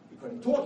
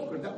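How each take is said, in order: First: Loud and high the first time; emphatic. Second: Said in the usual way. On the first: Real, not acted. Preacher stressing to the crowd, loud emphatic. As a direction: hit it hard, then repeat.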